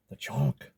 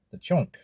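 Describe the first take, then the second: First: "chunk" dropped low and heavy; deep solemn repeat. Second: "chunk" said high and ringing, a grand announcement; dramatic high reveal. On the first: Repeating the food name for viewers in a low, solemn voice. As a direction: echo "The chunk" in a deep, weighty voice. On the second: Presenting the star food to his viewers, pitched up grandly. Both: Shown as a demonstration.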